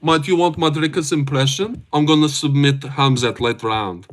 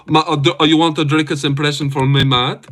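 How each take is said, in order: First: A rougher, lightly voiced South African accent; second go at the South African fighter voice; Dricus impression. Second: Put-on a light South African accent, first try; hamming up a South African fighter's voice; Dricus impression. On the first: Streamer retries Dricus for chat, rough South African accent. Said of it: "The first one was better". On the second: Streamer does Dricus for chat, light South African accent. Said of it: "Do a Drickus voice impression".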